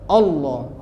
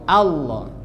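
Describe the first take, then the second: First: The first vowel is thick, like o. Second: The first vowel is thin, like a. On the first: The speaker calls it wrong. "O, O dia, bukan A" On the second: The speaker calls it right. "A ini bukan huruf tebal, dia huruf tipis"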